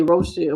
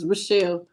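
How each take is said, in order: First: "Rochelle" as roh-SHELL; habitual mispronunciation. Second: "Rochelle" as rih-SHELL; corrected pronunciation. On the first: Streamer showing her own habit, "Rochelle" as roh-SHELL. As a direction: give "Rochelle" a long "oh" in the first syllable. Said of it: "I say Rochelle". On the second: Streamer correcting a viewer's name, "Rochelle" as rih-SHELL. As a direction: give "Rochelle" a short "rih" in the first syllable. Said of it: "but it's Rochelle". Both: Shown as a demonstration.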